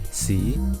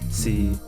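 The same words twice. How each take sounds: First: It is said with Cantonese tone two. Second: It is said with Cantonese tone six.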